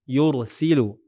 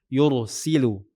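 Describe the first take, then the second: No difference in how they are said.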